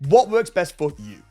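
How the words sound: The pitch falls at the end. It is a confident command. The speaker calls it right. "you go down. It's a command"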